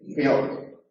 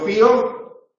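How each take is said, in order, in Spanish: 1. La palabra se dice en una sílaba. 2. La palabra se dice en dos sílabas.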